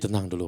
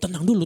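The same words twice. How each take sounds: First: It is said in a soft, calm tone. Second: It is said in a tense, agitated tone. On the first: It helps calm the other person. The speaker calls it right. "bawa acara radio tengah malam" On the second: It fails to calm the other person. The speaker calls it wrong. "Gimana kita ngomong nggak tenang?"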